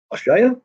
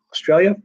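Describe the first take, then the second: First: Higher, rising Australian-accented Australia?; a quick, half-hearted try at saying Australia? in an Australian accent; mock Australian accent on Australia?. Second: Said in the usual way. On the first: Shown as a demonstration. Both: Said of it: "I don't do a good Australian accent".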